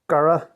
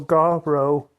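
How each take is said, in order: First: It is said quickly, run together. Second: It is said slowly, syllable by syllable.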